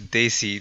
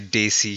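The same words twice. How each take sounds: First: The D at the start is soft. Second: The D at the start is strong. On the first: The speaker calls it right. "It's Daisy" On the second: The speaker calls it wrong. "Don't say Daisy"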